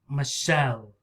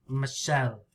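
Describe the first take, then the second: No difference in how they are said.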